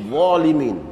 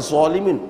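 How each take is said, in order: First: The word begins with a heavy th-like sound. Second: The word begins with a heavy z sound. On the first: The speaker calls it right. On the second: The speaker calls it wrong.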